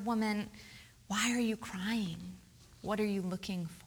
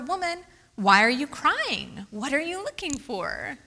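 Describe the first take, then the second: First: It sounds gentle and compassionate. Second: It sounds coy and playful.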